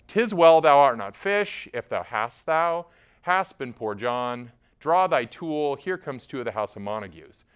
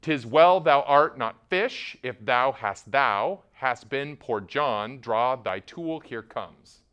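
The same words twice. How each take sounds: First: Said in the usual way. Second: Slow, every second beat hit, "'Tis well thou art not fish" as da-DUM; iambic pentameter. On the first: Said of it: "show you an example". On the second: Shown as a demonstration. Teacher reading the line in strict meter, slowly. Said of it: "how it's actually supposed to be said".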